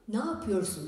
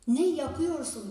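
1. Kelimeler birleşir ve kısalır. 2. Her ses tam olarak söylenir. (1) "Ne yapıyorsun diyoruz" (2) "ne yapıyorsun diye yazmamız lazım"

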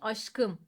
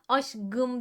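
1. Ünsüz yumuşamaz, sert kalır. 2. Ünsüz yumuşar, sesli olur.

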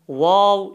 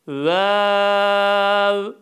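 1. Harf adı kalın ve yoğun biçimde yuvarlak okunuyor. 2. Harf adı ince ve hafif yuvarlak okunuyor. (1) "ince harf olduğu için yani vav şeklinde okunmasın" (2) "Vav şeklinde okunsun"

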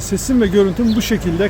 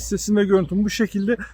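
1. Arka plan gürültüsü, gürültü engelleme olmadan kayıtta kalır. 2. Arka plan gürültüsü, gürültü engelleme ile bastırılır. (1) "gürültü engelleme özelliği kapalı" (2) "Şu anda gürültü engelleme özelliği açık"

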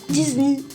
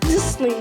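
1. Bu isim Fransızca telaffuzla söylenir. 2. Bu isim Rusça telaffuzla söylenir. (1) "Fransızca" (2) "Rusça"

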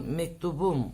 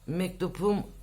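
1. Ekin önündeki ünsüz yumuşak b'dir. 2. Ekin önündeki ünsüz sert p'dir. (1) "Yumuşama oldu" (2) "Mektupum olmuyor"

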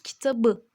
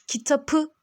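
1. Son ünlüden önceki ünsüz b'dir. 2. Son ünlüden önceki ünsüz p'dir. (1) "kitabı diyoruz" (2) "Kitapı demiyoruz"

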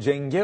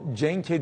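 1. İsim, ekten önce yumuşayarak 'g' sesine döner. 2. İsim, ekten önce sert 'k' sesini korur. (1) "şöyle olur Cenge olur" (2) "o Cenk'e değildir"

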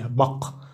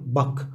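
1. صوت الكاف الأخير صلب وقوي. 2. صوت الكاف الأخير ناعم وخفيف. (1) "في شرق تركيا قاف قوية" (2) "يعني في إسطنبول قاف مخففة"

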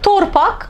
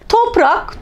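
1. r sesi p sesinden önce gelir. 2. r sesi p sesinden sonra gelir.

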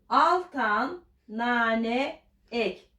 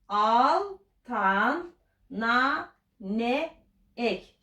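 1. Daha hızlı okunuyor, heceler birbirine geçiyor. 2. Yavaş okunuyor, hece hece. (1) "Şimdi daha hızlı söyleyelim" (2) "Beraber okuyalım"

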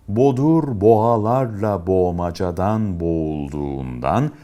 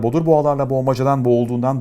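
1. İfade yavaş ve özenle okunuyor. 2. İfade mümkün olduğunca hızlı okunuyor. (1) "Bu hızda okuduktan sonra en az 2 kere daha okuyun. Lütfen sıkılmayın" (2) "Şimdi en hızlı şekilde okuyalım"

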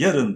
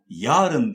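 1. Vurgu ilk heceye düşer. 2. Kelime uzatılarak, uzun çekilerek söylenir. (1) "öne vurgu alarak söylenmesi, yarın diye söylenmesi doğru tabii" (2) "yarın diye uzatılması doğru değil"

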